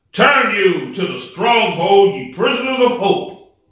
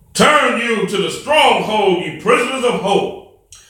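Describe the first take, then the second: No difference in how they are said.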